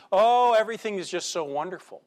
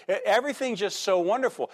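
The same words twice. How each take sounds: First: A long sighing "Oh", everything is just so wonderful, mockingly; mock nostalgia. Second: Quick mock nostalgia. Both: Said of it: "when we get in the middle of the hardship".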